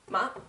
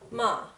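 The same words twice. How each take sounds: First: The vowel is short. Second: The vowel is drawn out long.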